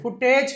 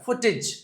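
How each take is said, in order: First: The final syllable has an 'eh' vowel, 'tej'. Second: The final syllable has an 'ih' vowel, 'tij'. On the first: The speaker calls it wrong. "ఫుటేజ్ కాదు" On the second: The speaker calls it right. "ఇజ్ అని చదవాలి"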